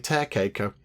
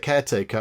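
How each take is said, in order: First: The word begins with a t sound. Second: The word begins with a k sound. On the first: The speaker calls it wrong. "I say tarecaker" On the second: The speaker calls it right. "I couldn't say caretaker"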